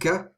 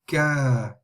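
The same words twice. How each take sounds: First: The vowel is short. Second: The vowel is lengthened. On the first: The letter carries only a short vowel mark. "it would be not ka" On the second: The letter is followed by a lengthening letter. "but it would be ka"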